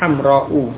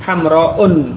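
First: The word ends on a vowel without 'n'. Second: The word ends with an added 'n' sound. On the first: The speaker calls it right. "tetapi hamra'u" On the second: The speaker calls it wrong. "bukan hamra'un"

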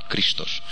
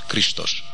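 First: The word is said with 'sh' sounds. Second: The same.

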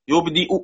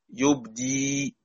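First: The hamza is pronounced as a glottal stop. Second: The hamza becomes a long ee vowel. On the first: "مش هينفع الروم غير لما احقق الهمزه" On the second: "حمزة يبدلها ياء مد"

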